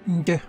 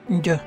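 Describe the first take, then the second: The two takes are said the same way.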